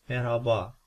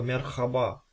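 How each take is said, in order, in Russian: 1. h — мягкий выдох, почти неслышный. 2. h — твёрдый, хриплый звук из горла. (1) "Они всегда говорят мераба. То есть практически ее там нету" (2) "если мы будем называть ее как наша русская хе, то получится слово мерхаба"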